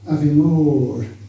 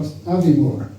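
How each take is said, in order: First: The stress falls on the final part, more. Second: The stress falls on the opening part, Avie. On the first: The speaker calls it right. "because the stress is on the second word" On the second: The speaker calls it wrong. "not Aviemore"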